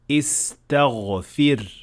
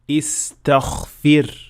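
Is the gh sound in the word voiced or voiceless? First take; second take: voiced; voiceless. First: The gh sound is voiced throughout. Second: The gh sound is voiceless, like kha. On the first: The speaker calls it right. "So we should say" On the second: The speaker calls it wrong. "it will sound more like kha rather than ghain, like in this word"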